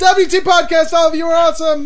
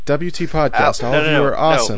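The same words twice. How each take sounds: First: It is read loudly, as if shouting. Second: It is read at a plain, normal volume. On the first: "I thought it was all caps" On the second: "you're reading it wrong"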